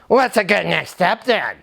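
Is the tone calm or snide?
snide. It is asked in a smart-alecky, jerky tone.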